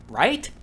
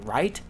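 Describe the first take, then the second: First: High, rising, disbelieving "Right?"; mock-incredulous repeat; incredulous echo. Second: Said in the usual way. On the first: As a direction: throw his word back at him, stunned. Echoing his question back in disbelief.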